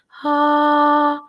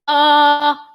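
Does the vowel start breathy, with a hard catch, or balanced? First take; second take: breathy; hard catch. First: The vowel starts with breathy air before voicing. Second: The vowel starts with a hard glottal catch.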